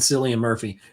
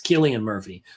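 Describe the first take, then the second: First: The first name begins with an s sound. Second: The first name begins with a k sound. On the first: The speaker calls it wrong. "I always said it wrong because I, I look at it phonetically" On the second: The speaker calls it right. "but it's Killian Murphy"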